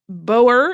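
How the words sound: It is said with a common native English pronunciation. "common in the when you, you're a native English speaker"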